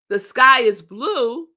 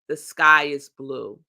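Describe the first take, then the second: First: It is said in a superior, complaining tone. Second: It is stated as a plain, neutral fact.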